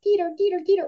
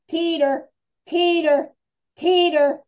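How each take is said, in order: First: Quick words run together in a steady rhythm. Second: Loud, slow words clearly separated from each other. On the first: The dog should add speed. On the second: The dog should not add speed. "loud, it's methodical, enunciated, and clear"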